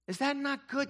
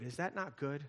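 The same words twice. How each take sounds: First: Much higher, louder call to the congregation; preacher's call. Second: Said in the usual way. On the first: Shown as a demonstration. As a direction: throw the question out to the room.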